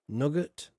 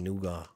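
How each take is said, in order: First: It is said like nugget, with a short vowel. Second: It is said noo-gah, with a long first vowel. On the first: "how do you say in America again?" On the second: "We say nougat"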